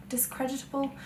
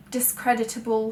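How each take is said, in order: First: Quiet questioning echo of DISCREDITABLE; doubting the word. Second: Said in the usual way. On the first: Real, not acted. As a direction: softly query your own word, as an aside. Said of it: "I'm just inventing words left". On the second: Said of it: "I'm just inventing words".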